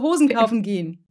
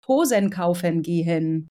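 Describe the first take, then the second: First: The unstressed endings are reduced and run together. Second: Every unstressed ending is pronounced in full. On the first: The speaker calls it right. "ist total gut" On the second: The speaker calls it wrong. "Es wär komisch"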